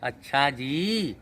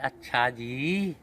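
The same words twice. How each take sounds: First: It sounds sweet and affectionate. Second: It sounds sweet and affectionate.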